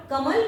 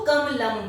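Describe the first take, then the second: First: Said in the usual way. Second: कमलम with a clear final म; Sanskrit pronunciation. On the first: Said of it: "कमल को ही हम जब संस्कृत में बोलेंगे". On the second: Shown as a demonstration. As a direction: say कमलम, the Sanskrit form of कमल. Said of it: "जब संस्कृत में बोलेंगे तो कमलम बोलेंगे". (संस्कृत उच्चारण में कमलम, अंत का म साफ़ बोलें)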